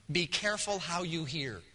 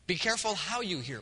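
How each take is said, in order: First: Careful leaned on, falling; quiet, careful quote of Jesus; stress on careful. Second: Careful stressed, phrase falls; repeated with weight on careful. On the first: Pastor quotes Jesus to the congregation, stressing careful. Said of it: "there Jesus declares". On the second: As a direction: drive home careful. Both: Shown as a demonstration.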